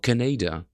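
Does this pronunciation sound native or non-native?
non-native. It is said in a non-native way. The speaker calls it wrong. "When you're not a native speaker"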